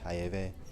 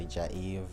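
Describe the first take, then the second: First: The name is pronounced in a Spanish style. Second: The name is pronounced in an English style. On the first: This is how Spanish speakers say it. "if someone speaking Spanish" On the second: This is how English speakers say it. "If English"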